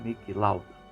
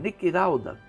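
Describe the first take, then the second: First: The name is said with a clear L. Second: The L in the name sounds like R. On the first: The speaker calls it right. "não conseguia falar Niki Lauda" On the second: The speaker calls it wrong. "o locutor japonês dizia Niki Lauda"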